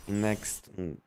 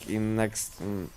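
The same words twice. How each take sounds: The two takes are said the same way.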